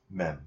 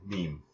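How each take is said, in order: First: "Mem" with a short e sound; "Mem" rhymes with "gem"; soft short e take. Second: "meme" with a long ee sound; "meme" rhymes with "team"; soft long ee take. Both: Shown as a demonstration. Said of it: "Is it meme or mem?".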